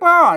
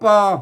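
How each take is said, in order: First: The syllable is said with a falling tone. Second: The syllable is said with a low tone. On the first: "เสียงโทปกติ" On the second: "เสียงเอก"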